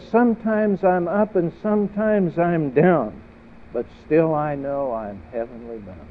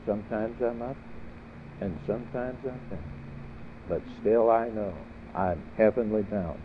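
First: Proclaimed loud and high, settling by the end; saint's declaration. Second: Softer, more reflective delivery; quiet repeat. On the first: Preacher voicing a saint to the congregation, ringing declaration. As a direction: ring it out to the congregation, then ease down. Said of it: "A saint talks like this". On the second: Preacher repeating a saint's saying, quietly. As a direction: say it softly, pausing between phrases. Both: Acted.

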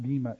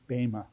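First: Bema as BEE-ma, with a long E sound; wrong pronunciation. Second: Bema as BAY-ma, with a long A sound; correct pronunciation. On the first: Teacher showing students the mistaken bema, pronounced BEE-ma. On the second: Teacher correcting students on bema, pronounced BAY-ma. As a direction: say bema the Greek way, "BAY-muh". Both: Shown as a demonstration. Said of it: "it's not bema, it's bema".

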